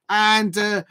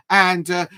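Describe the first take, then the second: No difference in how they are said.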